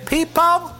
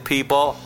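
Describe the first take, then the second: First: It is said in an imitated rock-singer voice. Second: It is said in the speaker's plain voice.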